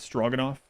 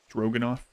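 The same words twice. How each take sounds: First: The first syllable has an 'aw' vowel. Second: The first syllable has an open 'oh' vowel. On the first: "instead of straw" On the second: "Just an O and open. ... Stro"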